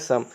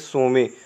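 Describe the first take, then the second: First: The word ends without any final vowel. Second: The word ends with a sounded e vowel. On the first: The speaker calls it right. "ये सोमे नहीं है, क्या है, सम" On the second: The speaker calls it wrong. "गलत pronunciation कर रहे हो, जैसे बोलेंगे सोमे"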